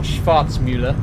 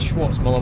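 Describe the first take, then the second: First: The name is said with a German-sounding vowel. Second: The name is said with an English-sounding vowel. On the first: The speaker calls it right. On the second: The speaker calls it wrong.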